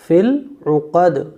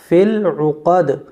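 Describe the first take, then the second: Both takes have the same delivery.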